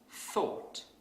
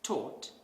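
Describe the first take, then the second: First: It begins with a TH sound. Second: It begins with a plain T sound. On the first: The speaker calls it right. "instead of thought" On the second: The speaker calls it wrong. "replace certain sounds with other sounds that are easier to say"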